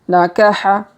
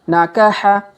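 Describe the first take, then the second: The two takes are said the same way.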